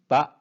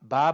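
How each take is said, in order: The two takes are said the same way.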